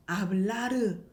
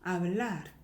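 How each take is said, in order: First: "hablar" with an extra "eu" vowel after the r; "hablar" with the last r fully sounded as "reu"; wrong final r. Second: "hablar" ending on a light r, no vowel after; "hablar" with a faint, unrolled final r; weak final r. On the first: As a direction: end "hablar" as a full syllable, "a-beul-la-reu". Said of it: "아니죠". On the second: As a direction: let the r at the end of "hablar" die away. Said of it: "약하게". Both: Shown as a demonstration.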